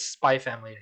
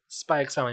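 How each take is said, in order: First: The middle X is left out entirely. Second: The middle X is spoken aloud. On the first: The speaker calls it wrong. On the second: The speaker calls it right.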